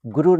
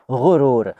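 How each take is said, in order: First: गुरूर said with a hard g; plain g. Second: गुरूर said with a throaty ग़. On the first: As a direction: say गुरूर with an ordinary ग. (गुरूर में साधारण ग) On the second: (गुरूर में ग़ का सही उच्चारण) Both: Shown as a demonstration. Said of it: "गुरूर नहीं".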